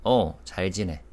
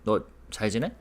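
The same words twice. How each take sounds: First: 지내. falling at the end; falling answer tune. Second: 지내? rising at the end; rising question tune. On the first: Teacher contrasting the answer with the question: falling end. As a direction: let 지내. drop flat as an answer. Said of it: "the last syllable in terms of pitch". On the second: Teacher showing students the question tune: rising last syllable. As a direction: lift the pitch on the last syllable of 지내?. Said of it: "raise the, the last syllable in terms of pitch". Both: Shown as a demonstration.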